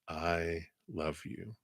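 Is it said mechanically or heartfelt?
heartfelt. It is said warmly, with real feeling.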